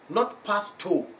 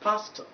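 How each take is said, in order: First: The final vowel is a full, strong vowel. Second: The final vowel is a weak, short schwa. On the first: The speaker calls it wrong. "you are putting vowel number seven instead of vowel number twelve" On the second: The speaker calls it right. "pastor, not pasto"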